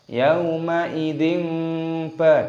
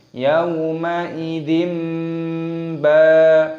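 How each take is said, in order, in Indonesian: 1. Sebelum ba terdengar bunyi n. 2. Sebelum ba terdengar bunyi m. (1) "jangan dibaca yauma idzin ba, tidak" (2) "tapi diganti dengan mim"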